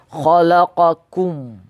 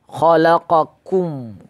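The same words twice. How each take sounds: Both takes have the same delivery.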